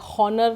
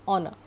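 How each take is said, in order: First: The word starts with a clear H sound. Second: The word starts with a vowel, no H. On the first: The speaker calls it wrong. "नहीं कहते हैं" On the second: The speaker calls it right. "did you listen to my pronunciation?"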